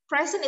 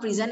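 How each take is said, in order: First: "Present" as PREZ-ent, first syllable higher; stress on first syllable. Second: "present" as pri-ZENT, second syllable stressed. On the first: Teacher showing the noun, "Present" stressed on first syllable. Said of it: "Present is a noun". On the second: Teacher showing the verb, "present" stressed on second syllable. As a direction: lean on the last syllable of "present". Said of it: "present is a verb". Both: Shown as a demonstration.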